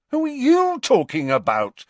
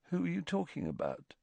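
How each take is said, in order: First: YOU punched high and loud; stress on YOU. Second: Soft, quick, higher-pitched question; puzzled murmur. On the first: Harry, baffled, turns Ron's question back, stressing YOU. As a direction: throw the question back, hitting "you" hard. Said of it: "increasing sense that all reason". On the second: Ron has no idea whom Harry means, quietly puzzled. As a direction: ask it quietly, genuinely lost. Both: A narrator's reading.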